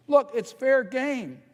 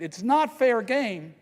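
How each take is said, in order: First: "fair game" 천천히 또박또박, 높게 강조; slow, raised "fair game", each word leaned on; stress on fair game. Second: "not" 강하게, 문장 전체를 천천히 높게; slow, raised "It's not fair game", hitting "not"; stress on NOT. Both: Real, not acted. Contrasting fair and unfair tactics.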